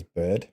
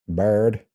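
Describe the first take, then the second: First: "bird" without the American r; contrasting non-American "bird". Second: "Bird" with an American r-coloured vowel; American accent on "Bird". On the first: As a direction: say "bird" the other way, not American. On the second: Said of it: "'cause American bird". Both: Shown as a demonstration.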